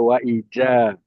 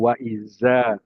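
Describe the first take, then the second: First: The middle consonant sounds like j. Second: The middle consonant sounds like z. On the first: "jangan ada wa ija" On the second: "jangan ada wa iza"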